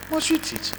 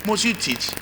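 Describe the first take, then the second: First: Lightly mocking, much higher voice; high mocking echo. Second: Said in the usual way. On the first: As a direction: throw the question back in a high mock. Mock echo of the nagging question.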